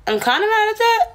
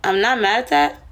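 First: Joking twist. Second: Said in the usual way. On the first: Shown as a demonstration. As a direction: flip it into a teasing complaint.

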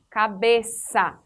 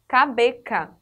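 First: "cabeça" slow, syllable by syllable, ca-be-SA; som de S. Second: "cabeca" with a hard K, ca-be-KA; C com som de K. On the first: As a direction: bring out ç as S in "cabeça". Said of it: "Da mesma forma". ("cabeça" silabado, com "ç" como S) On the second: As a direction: say "cabeca" as if the cedilla were missing. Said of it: "nós falaríamos cabeca". ("cabeca" com C duro, som de K) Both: Shown as a demonstration.

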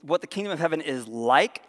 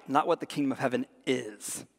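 First: "like" lifted at the end; stress on like. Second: "is" set apart with a falling tune; stress on is. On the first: Preacher correcting literal readings, emphasis on "like". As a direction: land on "like" with a rising tune. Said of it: "So don't, remember". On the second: Preacher ruling out literal readings, falling emphasis on "is". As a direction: close firmly on "is", pitch falling. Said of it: "it's what the kingdom of heaven is like". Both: Shown as a demonstration.

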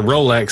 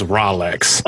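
First: Said in the usual way. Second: Rolex with "rah" for the first syllable; misspelled brand pronunciation. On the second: Shown as a demonstration. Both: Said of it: "your Rolex says Rolex".

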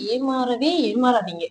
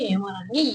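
First: Slow, heavy stress on ஏமாறவே ஏமாறாதீங்க; emphatic warning. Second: Said in the usual way. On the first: Real, not acted. Warning viewers never to be fooled, ஏமாறவே slow and heavy. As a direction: lean hard into ஏமாறவே, dragging it out slowly.

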